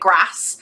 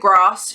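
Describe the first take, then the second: First: Grass is said the Scottish way, rhyming with mass. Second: Grass is said in the speaker's own accent.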